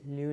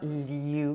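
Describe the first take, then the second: First: Only a faint y-glide comes before the vowel. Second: A strong y-glide comes before the vowel. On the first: The speaker calls it right. "just have a little hint of that ya in there" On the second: The speaker calls it wrong. "It's not liu"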